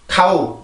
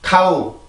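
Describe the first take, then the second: Both takes have the same delivery.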